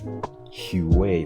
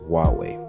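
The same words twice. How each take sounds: First: The name is said to sound like 'Huey'. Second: The name is said not sounding like 'Huey'. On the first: The speaker calls it wrong. "like Huey, in a much more funny way" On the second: The speaker calls it right. "it took me at least a couple of months to get used to calling it"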